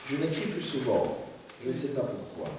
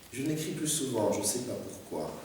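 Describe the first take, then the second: The two takes are said the same way.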